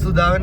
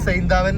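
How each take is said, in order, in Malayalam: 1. ഈ പേര് 'soo' എന്ന ശബ്ദത്തിലാണ് തുടങ്ങുന്നത്. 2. ഈ പേര് 'sigh' എന്ന ശബ്ദത്തിലാണ് തുടങ്ങുന്നത്. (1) "നമ്മുടെ അവിടെ സുധാവൻ എന്നാ പറയുന്നത്" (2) "സൈന്താവൻ എന്നാണ് നമ്മൾ പറഞ്ഞുകൊണ്ടിരുന്നത്"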